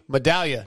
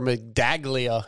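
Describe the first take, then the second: First: The G sound is left out of the name. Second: The G sound is pronounced in the name. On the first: The speaker calls it right. "No G. The G is silent" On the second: The speaker calls it wrong. "he never says the name right"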